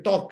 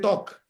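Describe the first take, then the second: First: The word is said in a plain accent. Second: The word is said in a put-on European accent. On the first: "you don't say talk" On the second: "it's a typical European language, right? ... you say talk"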